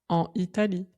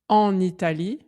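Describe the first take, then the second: First: The n is not linked to the next word. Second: The n is linked to the next word. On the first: The speaker calls it wrong. "on ne dit pas" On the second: The speaker calls it right. "On dit bien"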